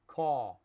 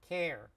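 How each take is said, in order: First: It is said in a New York accent. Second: It is said in a Chicago accent. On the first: "In New York" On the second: "In Chicago"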